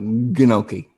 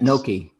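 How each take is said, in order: First: The word starts with a hard G sound. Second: The word starts with an N sound. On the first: The speaker calls it wrong. "I'm gonna go with the G" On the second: The speaker calls it right. "Got it. I got it"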